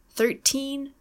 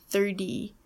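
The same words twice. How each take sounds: First: Put-on thirteen with a crisp T, TEEN pitched higher; hard T and long ee in thirteen; true T in teens. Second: Thirty with a D-like T, falling; flapped T in tens. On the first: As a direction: lift the end of thirteen on a clear "TEEN". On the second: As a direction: say thirty as "thirdy". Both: Shown as a demonstration. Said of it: "They sound completely different".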